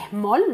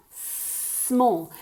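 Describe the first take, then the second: First: "Small" with a vowel put before the s, "esmol"; wrong S. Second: "Small" starting on a long pure hiss; corrected S. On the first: Teacher mimicking the learners' slip, "esmol" for "Small". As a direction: start "Small" on a quick Spanish e. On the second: Teacher correcting learners, long hissed S in "Small". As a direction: stretch the s of "Small" with no vowel before it. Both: Shown as a demonstration. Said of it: "Small, no".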